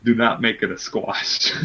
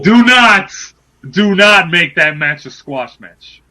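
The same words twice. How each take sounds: First: Low, measured mock-serious radio voice; NPR voice. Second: Loud outburst easing into slow insistence; emphatic demand. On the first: Begging Impact not to squash his wrestler, low NPR voice. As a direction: deliver it low and deadly serious. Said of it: "This is my N P R voice". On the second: Real, not acted. Demanding Impact give a fair match, emphatic shout. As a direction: burst out loud, then spell it out slowly. Drops radio voice, demands it loudly.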